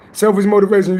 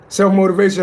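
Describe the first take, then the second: First: Selfish motivation said as selfish, with a clear s in Selfish; reading the title wrong as Selfish motivation before correcting it; misread word. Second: Self-motivation said as self, no -ish; careful corrected reading of Self-motivation; corrected word. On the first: Streamer misreads the title to viewers, Selfish motivation said as selfish. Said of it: "I'm sorry, selfish motivation". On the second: Streamer finally reads the title right, Self-motivation said as self. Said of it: "Um, self-motivation". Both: Real, not acted.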